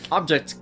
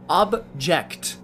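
First: Laughing stumble. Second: Said in the usual way. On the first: Real, not acted.

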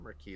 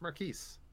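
First: "Marquis" as mar-KEE, S silent. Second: "Marquise" as mar-KEEZ, ending on a Z sound; sounded final consonant. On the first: Host quotes the mistake, "Marquis" said mar-KEE. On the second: Host corrects his co-host, "Marquise" said mar-KEEZ. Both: Shown as a demonstration. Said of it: "there's an E at the end".

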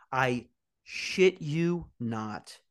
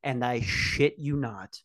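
First: Very slow, stretched-out oath; drawn-out emphasis. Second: Said in the usual way. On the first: Real, not acted. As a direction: drag out every word for effect.

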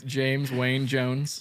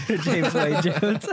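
First: Slow grand name. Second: Slow laughing repeat; laughing echo. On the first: Proposing a name, amused. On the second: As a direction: giggle the name out. Echoing with laughter. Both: Real, not acted.

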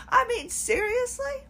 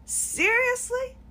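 First: High incredulous "seriously"; exasperated disbelief. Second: High, slow drawn-out "Seriously"; slow exasperated disbelief. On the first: Venting about the therapist, high exasperated disbelief. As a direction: throw up your hands in disbelief. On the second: Venting to the camera, slow incredulous disbelief. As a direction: let it hang, utterly fed up. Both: Real, not acted.

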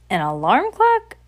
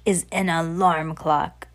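First: Higher, louder incredulous echo; surprised question. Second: Slow, deliberate reveal; announcing witch. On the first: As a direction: ask it back, astonished, voice shooting up. Audience questions the secret. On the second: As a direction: announce the secret slowly as the witch. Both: Acted.

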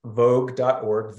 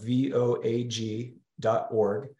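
First: Vogue said as one word, slowly, like the word "vogue". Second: V O A G spelled letter by letter, slowly. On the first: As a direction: say the name vogue as a single spoken word. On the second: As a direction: spell out V O A G one letter at a time. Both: Shown as a demonstration.

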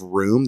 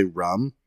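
First: Said in the usual way. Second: "rum" for room, short vowel; Minnesotan pronunciation. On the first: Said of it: "instead of room, they'll say rum". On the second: Shown as a demonstration. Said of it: "they'll say rum".

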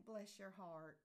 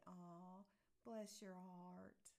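First: Matter-of-fact, condescending blessing; politely pitying. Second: Slow, drawn-out tender blessing; sweetly grateful. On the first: To someone who did something silly, politely pitying. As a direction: say it as a polite put-down. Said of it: "if somebody does something that is". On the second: To somebody who brought you flowers, sweetly grateful. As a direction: linger on it tenderly, like a thank-you hug. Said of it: "now on a good note". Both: Acted.

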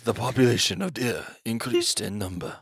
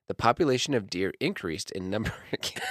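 First: Deep, low nature-documentary narrator; David Attenborough voice. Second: Laughing. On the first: Retold or imitated. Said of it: "The David Attenborough special". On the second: Real, not acted. Read while cracking up.

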